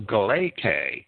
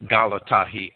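First: The word ends in an 'ay' vowel sound. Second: The word ends in an 'eye' diphthong sound. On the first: The speaker calls it wrong. "many who would pronounce galatahi as galate" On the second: The speaker calls it right. "The AI diphthong in Greek is not a replacement for the letter eta"

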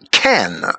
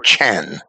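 First: It starts with a plain k sound. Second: It starts with a guttural ch sound. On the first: The speaker calls it wrong. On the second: The speaker calls it right.

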